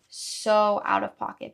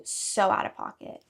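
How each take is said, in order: First: "so out of pocket" said again louder, leaning on "so"; drawn-out, louder "so out of pocket" for emphasis; emphatic repeat, louder and slow. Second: Said in the usual way. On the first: Shown as a demonstration. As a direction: hammer "so out of pocket" home the second time.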